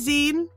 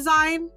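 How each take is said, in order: First: The vowel sounds like 'ee', as in 'magazine'. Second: The vowel sounds like 'eye', as in 'line'. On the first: The speaker calls it right. "It's a zine" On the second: The speaker calls it wrong. "No, it's not a zine"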